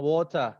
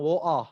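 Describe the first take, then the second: First: "water" with the T sounded, no final R; clear T. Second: "woah" with a glottal stop for the T; dropped T. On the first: Teacher showing one British way of "water", T sounded. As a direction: say "water" with a crisp middle T. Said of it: "ada yang ngomong water". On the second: Teacher showing another British "woah", T swallowed. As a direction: break "woah" in the middle, no T. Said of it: "ada yang ngomong woah". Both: Shown as a demonstration.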